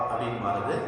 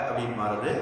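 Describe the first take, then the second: The two takes are said the same way.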